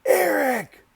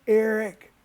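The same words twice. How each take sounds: First: Eric yelled even higher and harder, near a scream; louder call. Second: Shouting his name across the river; calling out. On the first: Calling Eric again when he doesn't respond, a shrill yell. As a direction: stretch Eric out at full pitch and volume. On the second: Calling to Eric stuck mid-river, a loud shout. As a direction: yell Eric over the water, high and loud. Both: Retold or imitated. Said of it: "I'm like".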